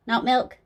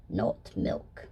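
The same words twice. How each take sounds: First: Rising, doubtful on milk; milk pushed up and a bit louder as a question; incredulous question. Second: Low, breathy, falling Not milk; milk said low and soft, settled, not asked; hushed confirmation. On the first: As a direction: ask Not milk? with a lift on milk. Questioning the snake milk idea. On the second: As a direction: drop Not milk. down to a near whisper. Confirming flatly, answering her own question. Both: Acted.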